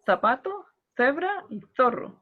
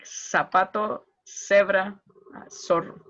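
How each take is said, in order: First: It has a Spain accent, with z like th. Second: It has a Latin American accent, with z like s.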